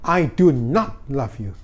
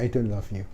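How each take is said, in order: First: The word not is said fully and stressed. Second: The word not is contracted and unstressed. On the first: A firm rejection after being ignored. "Not-nya itu bisa ditekan" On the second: A polite rejection. "ini dia ngomong I don't love you double"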